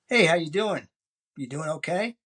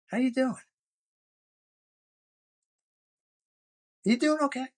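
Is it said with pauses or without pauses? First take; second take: without pauses; with pauses. First: It is said quickly without pauses. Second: It is said slowly with silent pauses.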